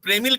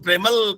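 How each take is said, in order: First: The second syllable has an 'i' vowel. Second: The second syllable has an 'a' vowel. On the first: "प्रेमिल कहना हो" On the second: "Punjabi अपने पंजाबी बोलते हैं प्रेमल"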